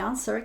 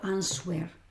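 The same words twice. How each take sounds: First: Not every written letter is sounded. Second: Every written letter is sounded out. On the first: The speaker calls it right. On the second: The speaker calls it wrong.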